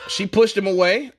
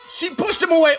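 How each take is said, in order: First: It is said in his ordinary casual voice. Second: It is said in a fight-commentator voice.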